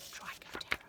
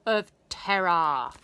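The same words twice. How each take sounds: First: Eerie whispered echo; spooky whisper. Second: Loud, slow ominous boom; dramatic boom. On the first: Narrator echoing the nickname to the children, whispered. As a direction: hiss it back like a ghost. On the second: Narrator revealing the scooter's scary nickname, loud and slow. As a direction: announce it like a horror title. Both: A narrator's reading.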